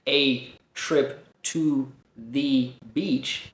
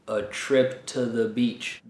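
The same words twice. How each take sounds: First: The small words have full, clear vowels. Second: The small words have reduced schwa vowels. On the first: The speaker calls it wrong. "I'm not saying" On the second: The speaker calls it right. "I'm saying"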